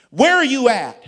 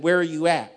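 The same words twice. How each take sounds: First: High, booming mock demand; loud demand. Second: Loud, firm repeated question; firm insistence. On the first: Senior pastor quizzing Philip by phone, loud high demand. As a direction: pounce on the question, pitched up and loud. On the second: Retold or imitated. Senior pastor pressing Philip for an answer, firm insistence. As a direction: press the question firmly without raising the pitch.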